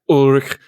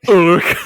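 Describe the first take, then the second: First: The name is said fully and carefully. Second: The name is said lazily and slurred. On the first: "he gets like lazier and lazier as he pronounces it" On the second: "he gets like lazier and lazier as he pronounces it"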